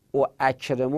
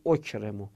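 First: "او اکرمو" with both glottal stops sounded; both hamzas pronounced. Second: "اکرمو" run as one easy word, okremo; smooth, shortened "اکرمو", no second catch; second hamza dropped. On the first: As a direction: say "او اکرمو" with a separate catch before each of the first two vowels. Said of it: "تلفظش سخت بود". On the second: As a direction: say "اکرمو" with a single opening glottal stop and short o. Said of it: "اون اش رو انداختیم". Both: Shown as a demonstration.

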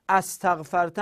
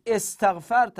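First: استغفرت with an opening a, astaghfarta; astaghfarta, pitched up, for استغفرت; wrong opening vowel. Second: استغفرت with an opening e, estaghfarta; emphatic, raised estaghfarta for استغفرت; corrected opening vowel. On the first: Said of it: "استغفرت نیست". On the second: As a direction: start استغفرت on a short e, louder and higher. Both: Shown as a demonstration.

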